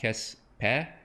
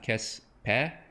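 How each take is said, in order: First: The e vowel is open, like 'eh'. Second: The e vowel is open, like 'eh'.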